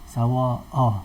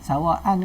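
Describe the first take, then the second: First: The word ends with a long a vowel. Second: The word ends with an n sound. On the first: The speaker calls it right. "cara baca dia ialah sawa'a. berhenti dengan sawa'a" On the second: The speaker calls it wrong. "Sawaan ni sawaan ke sawa'a?"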